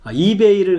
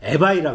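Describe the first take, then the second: First: The word ends with an 'ay' sound. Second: The word ends with an 'eye' sound. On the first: This is the usual way of saying it. "이베이를 갖다가 에바이라 그럽니다" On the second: This is how Georgians say it. "에바이라 그럽니다"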